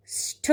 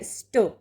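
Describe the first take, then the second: First: स्ठ with a held s and puffed ṭh; aspirated sṭh. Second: स्ट with a held s and dry ṭ; unaspirated sṭ. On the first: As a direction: say स्ठ as sṭho, with breath. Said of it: "की जगह". (स्ठ में महाप्राण ठ) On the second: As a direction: say स्ट as sṭo, without breath. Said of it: "टा का प्रयोग होगा". (स्ट में अल्पप्राण ट) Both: Shown as a demonstration.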